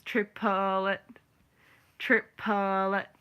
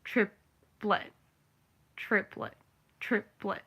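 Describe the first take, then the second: First: "triplet" stretched to three beats, TRIP-uh-let; three-syllable triplet. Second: "triplet" in two beats, TRIP-let; two-syllable triplet. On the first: Showing how a musician says it, three-syllable triplet. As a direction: draw out "triplet" with an extra middle syllable. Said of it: "to a musician, it's". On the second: Showing how a normal person says it, two-syllable triplet. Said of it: "To a normal person, it's". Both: Shown as a demonstration.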